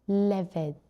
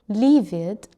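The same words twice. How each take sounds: First: The first vowel is a short i sound. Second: The first vowel is a long ee sound. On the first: The speaker calls it right. "it's short I" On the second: The speaker calls it wrong. "We don't say livid"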